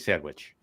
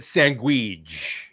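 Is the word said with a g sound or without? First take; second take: without g; with g. First: The word is said plainly, without a g sound. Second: The word is said with a g sound, 'sangwich'. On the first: It is how the speaker normally says it. "Now I don't say that, by the way. It's I, I say sandwich" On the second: It imitates how a TV character says it. "as Christopher Moltisanti in in uh, The Sopranos used to say"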